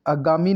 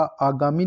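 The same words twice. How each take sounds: First: आगामी with a short first vowel; mispronounced आगामी. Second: Said in the usual way. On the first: Shown as a demonstration. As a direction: say आगामी as "a-gaami". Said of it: "आगामी नहीं होता". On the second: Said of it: "आगामी लिखा जाएगा".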